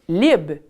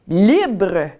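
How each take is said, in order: First: The final R sound is dropped. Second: The final R sound is pronounced. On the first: This is how Acadians said it. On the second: This is the standard French form.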